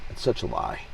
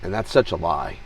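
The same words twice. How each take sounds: First: Much lower and softer, said half to himself; low, soft muttered echo of his own words; quiet repeat. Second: Said in the usual way. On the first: Real, not acted.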